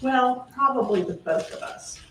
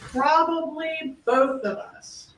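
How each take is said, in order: First: Said in the usual way. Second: Probably drawn out, slower; slowed quote, weight on Probably; stress on Probably. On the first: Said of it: "Her answer". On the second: Shown as a demonstration. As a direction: lean on Probably, slow and deliberate.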